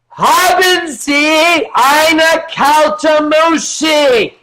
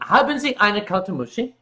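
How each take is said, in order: First: It is said loudly, American style. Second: It is said at normal volume.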